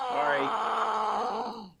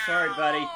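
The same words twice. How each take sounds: First: Shouted sorry. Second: Said in the usual way. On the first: Real, not acted. Apologising to a buddy across the room, a shouted call.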